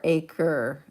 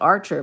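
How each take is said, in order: First: The name has no R and a k sound. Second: The name has an R sound and a ch sound. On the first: The speaker calls it right. "it's Aker... Like one who aches" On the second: The speaker calls it wrong. "Most people pronounce it Archer, but it's not. They add an R to it"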